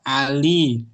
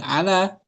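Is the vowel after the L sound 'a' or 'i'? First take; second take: i; a. First: The vowel after the L is 'i'. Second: The vowel after the L is 'a'. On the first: The speaker calls it right. "Ali dibaca Ali" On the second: The speaker calls it wrong. "Bukan ala"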